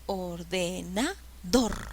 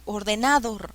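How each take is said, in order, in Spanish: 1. El acento cae en la última sílaba. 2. El acento cae en una sílaba antes de la última. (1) "Lleva la mayor fuerza de voz en la última sílaba" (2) "No, así no se dice"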